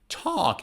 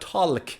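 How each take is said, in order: First: The L is silent. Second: The L is sounded. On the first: The speaker calls it right. "L is silent in talk" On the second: The speaker calls it wrong. "not talk"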